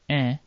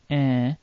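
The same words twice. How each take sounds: First: The nasal vowel is said very briefly. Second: The nasal vowel is held somewhat longer. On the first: "It can appear short"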